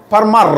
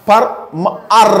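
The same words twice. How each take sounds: First: ফার্মার joined, far-mer with no gaps; blended word. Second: ফার্মার very slow, far-m-er in pieces; sounded out. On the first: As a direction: say ফার্মার as one whole word. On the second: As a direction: slowly split ফার্মার, holding the final 'er'. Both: Shown as a demonstration. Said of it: "এরকম উচ্চারণ হবে".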